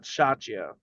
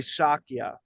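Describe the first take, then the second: First: The middle consonant is not a K sound. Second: The middle consonant is a hard K sound. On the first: The speaker calls it wrong. "not shachya" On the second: The speaker calls it right. "Say it with a K sound"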